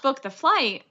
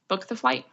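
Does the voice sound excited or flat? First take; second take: excited; flat. First: It is said with excited emotion. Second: It is said flatly, without emotion. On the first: It is an emotional reaction, not intuition. The speaker calls it wrong. "Not, oh my gosh" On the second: It is a calm, certain inner knowing. The speaker calls it right. "hard and fast"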